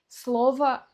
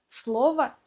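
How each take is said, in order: The two takes are said the same way.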